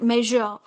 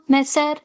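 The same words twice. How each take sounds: First: The middle consonant is a buzzing zh sound. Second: The middle consonant is a hissing s sound. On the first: The speaker calls it right. "zh sound, measure" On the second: The speaker calls it wrong. "Should I pronounce it? Sa, measure ... It's absolutely wrong"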